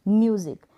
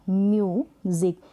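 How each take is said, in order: First: Said in the usual way. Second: music as a long mu, then ज़िक; split into syllables. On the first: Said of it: "यू को यू". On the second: Shown as a demonstration. Teacher breaks the example word, music in two pieces. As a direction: stretch and separate the first part of music. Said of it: "इसको break किया".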